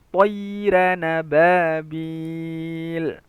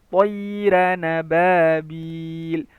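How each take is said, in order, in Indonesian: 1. Kedua kata diucapkan menyambung dengan suku kata penghubung. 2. Kedua kata diucapkan menyambung dengan suku kata penghubung.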